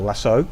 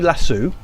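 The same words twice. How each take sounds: First: "lasso" ending in an oh sound; lasso as "lassoh". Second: "lasso" ending in an oo sound; lasso as "lassoo". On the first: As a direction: say "lasso" to rhyme with "go". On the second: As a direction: say "lasso" to rhyme with "shoe". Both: Shown as a demonstration. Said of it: "Is it a lasso or a lasso?".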